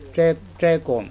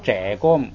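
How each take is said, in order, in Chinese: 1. 这个字读一声。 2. 这个字读二声。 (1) "一声" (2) "不要这公"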